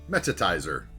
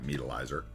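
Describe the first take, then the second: First: The name is said like 'meta-tizer'. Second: The name is said like 'meat-alizer'. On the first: The speaker calls it right. "Appetizer of meta" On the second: The speaker calls it wrong. "Not Meatalizer"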